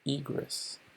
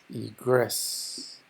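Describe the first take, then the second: First: The stress is on the first syllable. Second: The stress is on the second syllable. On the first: It is a noun meaning an exit. "Se pronuncia más acentuadamente la I" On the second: It is a verb meaning to go out. "Se pronuncia más asentado en la parte final"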